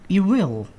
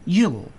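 First: Both words are said in full, separately. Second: The words are merged into one contracted syllable.

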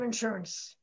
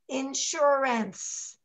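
First: The syllables are said in a relaxed, reduced way. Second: Every syllable is said fully and carefully. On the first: The word is said the way it is normally spoken. "instead of insurance" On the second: The word is sounded out to match its spelling. "You overpronounce, like insurance"

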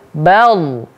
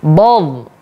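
First: The first consonant is light, with a front vowel. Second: The first consonant is heavy, with a rounded vowel. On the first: The speaker calls it right. "ba di situ huruf tipis, ba dibaca tipis" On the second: The speaker calls it wrong. "terbawa jadinya ba ini ketebal"

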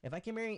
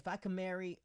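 First: It is spoken in a neutral accent. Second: It is spoken in a country American accent.

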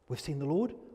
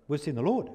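First: It is said in an encouraging voice. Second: It is said in an excited voice. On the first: They want to lift the listener's spirits. "Were they encouraging?" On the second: They are thrilled by what happened. "were they excited?"

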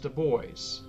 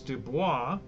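First: The name is pronounced the English way. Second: The name is pronounced the French way. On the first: "often in English it is pronounced as Dubois" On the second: "The French pronunciation is Dubois"

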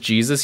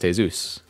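First: The name is pronounced the English way. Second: The name is pronounced the Spanish way. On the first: The speaker calls it wrong. "is Jesus here?" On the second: The speaker calls it right. "actually, it's pronounced Jesus"

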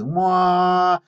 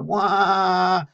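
First: The sound is held smooth and steady. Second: The sound wobbles up and down rapidly. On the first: The motor runs without oscillations. "smooth wah" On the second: The motor is oscillating after a throttle raise. "that's my bad impression of a motor that's oscillating"

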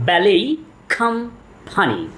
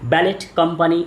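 First: Ballet ends in a vowel with no t. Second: Ballet ends with a clear t sound. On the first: The speaker calls it right. "এটির সঠিক উচ্চারণ হলো ব্যালেই company" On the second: The speaker calls it wrong. "এটার সঠিক উচ্চারণ ব্যালেট company না"

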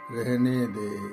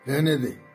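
First: It is said at a low, indifferent pitch. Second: It is said at a high, irritated pitch. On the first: The speaker is indifferent. "निम्न, उदासीन" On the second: The speaker is annoyed. "उच्च, झल्लाहट"

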